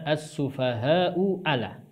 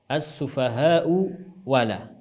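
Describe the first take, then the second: First: The second word starts with a glottal stop. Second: The second word starts with a w sound. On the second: "merubah hamzah kedua menjadi huruf waw"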